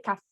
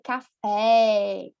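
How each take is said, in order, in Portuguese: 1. A vogal final soa como um I fraco. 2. A vogal final é um E claro e forte. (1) "eu não vou dizer café" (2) "Eu vou dizer café. ... Então é forte"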